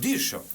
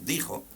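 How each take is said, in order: First: The middle consonant is a sh-like sound. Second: The middle consonant is a throaty h-like sound. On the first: This is how the word was pronounced in the thirteenth century. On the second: This is the present-day pronunciation.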